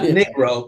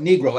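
First: The first syllable does not sound like knee. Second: The first syllable sounds like knee. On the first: The speaker calls it wrong. "not Negro" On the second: The speaker calls it right. "but Negro, as in your knee"

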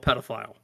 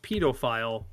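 First: The word is said the American way. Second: The word is said the English way.

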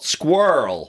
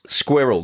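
First: It is said with an American pronunciation. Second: It is said with a British pronunciation. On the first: The speaker calls it wrong. "not squirrel" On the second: The speaker calls it right. "It's squirrel"

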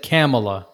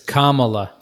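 First: The name starts like the word camera. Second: The name starts like the word comma. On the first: The speaker calls it wrong. "he said Kamala, like camera. Like camel A" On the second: The speaker calls it right. "It's Kamala. ... comma, C-O-M-M-A-L-A"

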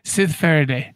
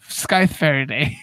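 First: The first word has a short 'i' sound. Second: The first word has a long 'i' sound. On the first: The speaker calls it wrong. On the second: The speaker calls it right.

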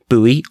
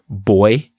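First: It is said the American way, like boo-ee. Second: It is said the English way, like boy.

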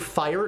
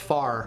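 First: The vowel glides, as in standard 'fire'. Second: The vowel is flat, sounding like 'far'. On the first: "Instead of fire" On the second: "it's far"

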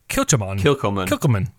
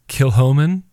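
First: The middle consonant is a hard k sound. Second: The middle consonant is a soft h sound. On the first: This is how the name looks when read from its spelling. "which looks like" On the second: This is how the name is actually pronounced. "it's pronounced this way"

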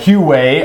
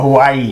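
First: The name does not sound like Hawaii. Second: The name sounds like the island Hawaii. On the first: The speaker calls it right. "Huawei, I think, is closer" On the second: The speaker calls it wrong. "They call it Hawaii"

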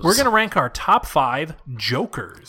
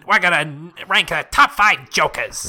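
First: It is said in his normal voice. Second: It is said in a Mo voice.

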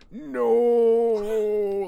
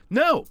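First: The word is drawn out slowly. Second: The word is said quickly and sharply.

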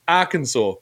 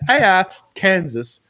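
First: It ends with a 'saw' sound. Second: It is said like 'ar' plus 'Kansas'. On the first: "but then it's Arkansas" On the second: "It's just AR Kansas"

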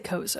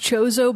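First: The word begins with a k sound. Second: The word begins with a ch sound. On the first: This is the speaker's own habitual way of saying it. "I say Kozo" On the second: This is the technically correct form. "it might technically be pronounced Chozo"

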